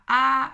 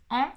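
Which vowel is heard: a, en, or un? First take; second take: a; en. First: The vowel is a plain oral a sound. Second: The nasal vowel sounds like French en. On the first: The speaker calls it wrong. "il n'y a même plus de nasalité ici" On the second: The speaker calls it right. "comme elle devrait être prononcée"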